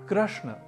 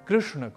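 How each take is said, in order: First: The r-vowel is said as 'ra' or 'ru'. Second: The r-vowel is said with an 'ri' sound. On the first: The speaker calls it wrong. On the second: The speaker calls it right.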